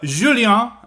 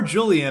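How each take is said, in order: First: The name is given a French pronunciation. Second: The name is given an English pronunciation. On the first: The speaker calls it right. "I think that's the way you pronounce it in French" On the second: The speaker calls it wrong. "as we would pronounce it in English"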